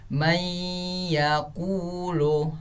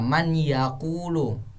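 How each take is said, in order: First: The n merges into a nasalized y sound. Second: The n sound is clearly pronounced before y.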